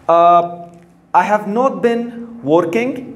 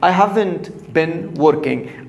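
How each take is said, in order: First: The words have not are said in full. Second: The words have not are contracted to haven't. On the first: "Negative form" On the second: "we said I haven't"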